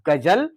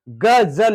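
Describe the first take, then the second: First: The middle consonant is short and plain. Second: The middle consonant is dragged out and hissing. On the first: "हमें बोलने में भी आसानी है गजल" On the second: "जा शब्द को घसीटते हुए हम बोलेंगे"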